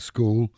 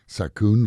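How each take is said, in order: First: It is said with a native English accent. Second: It is said with a Thai-style accent.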